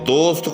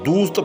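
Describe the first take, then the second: First: The vowel is a mid, rounded 'o' sound. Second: The vowel is a clear, long 'oo' sound.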